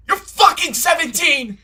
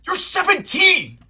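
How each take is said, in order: First: Loud high yell; louder outraged shout. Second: Outraged shout. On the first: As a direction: scream it at them. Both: Shown as a demonstration. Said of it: "Is that better?".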